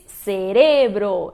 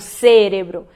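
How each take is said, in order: First: The stress is on the second syllable. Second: The stress is on the first syllable. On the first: The speaker calls it right. "Se diz cerebro" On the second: The speaker calls it wrong. "e não cérebro"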